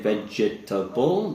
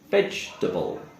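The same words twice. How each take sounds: First: The word is said with four full syllables. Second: The word is said with three syllables only. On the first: The speaker calls it wrong. "we don't say vegetable" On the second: The speaker calls it right. "The e sound, the second s sound, is silent. So we would say vegetable"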